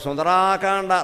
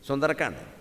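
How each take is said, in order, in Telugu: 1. 'sundar' తర్వాత అచ్చు దీర్ఘం. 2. 'sundar' తర్వాత అచ్చు హ్రస్వం. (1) "పలకడం చేతకాని వాడు సుందరాకాండ, రాక దీర్ఘం లేదు నాయన" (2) "నువ్వు పెట్టేవి ఇక్కడ సుందరకాండ"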